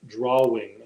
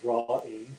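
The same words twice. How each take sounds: First: A W sound starts the second syllable. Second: The second syllable starts with a plain vowel. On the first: This is how another person says it. "like there's two W's in it. D R A or or D R A hyphen W I N G" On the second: This is how the speaker says it. "I pronounce it drawing. ... D R A W hyphen I N G"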